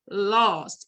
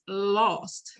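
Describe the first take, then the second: First: The word is said with strong, heavy emphasis. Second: The word is said plainly, without extra force.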